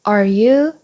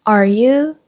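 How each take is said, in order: No difference in how they are said.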